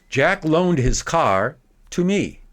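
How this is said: A long pause follows the direct object. "making a big pause after the direct object"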